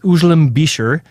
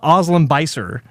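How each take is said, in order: First: The name has its native pronunciation. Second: The name has a Westernized pronunciation. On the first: The speaker calls it right. "It's it's" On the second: The speaker calls it wrong. "as everyone says in uh you know in, in the Western world"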